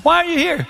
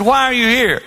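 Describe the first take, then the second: First: Much higher and sharper, pressing the word Why; sharper repeat. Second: Pointed question. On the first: Pastor presses the friend again, higher teasing question. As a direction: push harder on Why, teasing him. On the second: Pastor confronts divorced friend at the gym, pointed question. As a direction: ask him pointedly why he's there. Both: Retold or imitated. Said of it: "I said".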